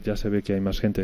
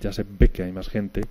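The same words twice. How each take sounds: First: The consonant is soft, with no full closure. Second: The consonant is a full stop with complete closure. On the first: "en vez de decir" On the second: "La variante de oclusiva, donde uno esperaría un aproximante"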